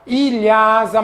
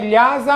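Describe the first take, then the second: First: It begins with an 'ee' before the 'l'. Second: It begins directly with the 'l' sound. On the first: The speaker calls it wrong. "tem muita gente que fala errado" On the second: The speaker calls it right. "mas o correto é"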